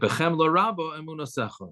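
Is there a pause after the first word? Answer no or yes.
no. The words run together without any pause. Belief in you comes with great pity. The speaker calls it wrong. "a lot of people just don't pronounce this properly"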